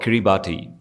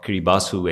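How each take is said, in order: First: The name ends with a 'bati' sound. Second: The name ends with a 'bass' sound. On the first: "it's called Kiribati" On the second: "actually, you pronounce it as"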